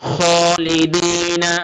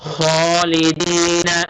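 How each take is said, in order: No difference in how they are said.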